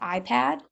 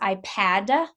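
First: The word ends cleanly on the d sound. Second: An extra vowel is added after the final d. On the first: The speaker calls it right. "instead of just iPad" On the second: The speaker calls it wrong. "you get an extra vowel at the end"

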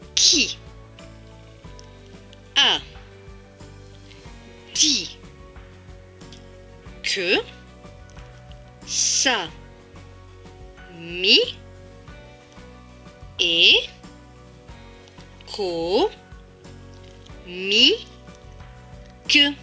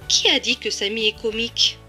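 First: It is read slowly, broken into syllables. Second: It is read smoothly at normal speed.

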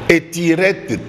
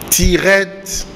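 First: An extra e vowel comes before the t. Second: The word starts directly with the t. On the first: The speaker calls it wrong. "Étirette T" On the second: The speaker calls it right. "Ezali nde tirette"

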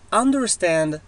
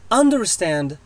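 The two takes are said the same way.

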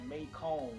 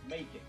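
First: The name is said with a French-sounding ending. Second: The name is said to rhyme with bacon. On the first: The speaker calls it wrong. "pronounce my city name completely wrong. They'll say Macomb. Like it was supposed to like a French name" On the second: The speaker calls it right. "say bacon. Now put an M. Macon. That's how you say it"

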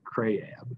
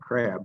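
First: The vowel is drawn out into two sounds. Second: The vowel is a single short sound. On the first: This is how the island dialect says it. "they say crayab" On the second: This is the usual mainland pronunciation. "instead of saying crab"

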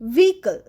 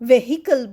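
First: The h in the middle is silent. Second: The h in the middle is pronounced. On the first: The speaker calls it right. "সঠিক উচ্চারণ ভেহিকল, এইচ উচ্চারণ হবে না।" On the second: The speaker calls it wrong. "আমরা অনেকেই কিন্তু এইখানে একটা ভুল করি, ভেহিকল বলি।"

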